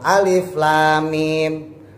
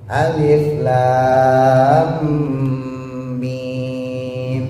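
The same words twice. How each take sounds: First: The lam is said short, straight into mim. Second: The lam is held long before mim. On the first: The speaker calls it wrong. "Jangan langsung alif lam mim" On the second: The speaker calls it right. "bacanya lam, tahan dulu"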